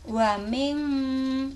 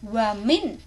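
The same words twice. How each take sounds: First: The n is blurred and nasal, not fully closed. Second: The n is pronounced fully and distinctly. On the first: The speaker calls it right. "di sini harus samar" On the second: The speaker calls it wrong. "tidak boleh wa min ya"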